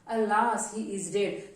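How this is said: It is said in a sad, sorrowful tone.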